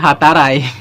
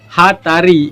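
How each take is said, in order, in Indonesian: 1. Kata ini diakhiri dengan vokal 'eye'. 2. Kata ini diakhiri dengan vokal 'ee'.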